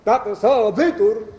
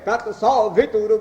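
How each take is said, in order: First: The pitch is low on sa, high on va. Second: The pitch is high on sa, low on va. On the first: The meaning of the mantra is reversed. The speaker calls it wrong. "अब इसको उल्टा कर दे अगर" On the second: The mantra keeps its proper meaning. The speaker calls it right. "सा पर ऊपर है और वा पर नीचे है"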